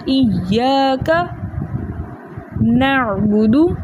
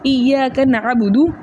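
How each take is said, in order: First: The y is doubled and the ain is stopped. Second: The y is short and the ain is unstopped. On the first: The speaker calls it right. "मजबूती के साथ" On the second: The speaker calls it wrong. "ना तो या को मुशद्दद पढ़ते और ना ही आइन को साकिन पढ़ते"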